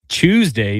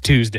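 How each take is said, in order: First: The word is said in a British accent. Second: The word is said in a non-British accent. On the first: The speaker calls it wrong. "That's a British thing" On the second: The speaker calls it right. "No, it's Tuesday"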